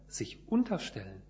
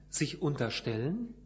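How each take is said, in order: First: The stress is on the first syllable, un. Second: The stress is on the third syllable, stellen.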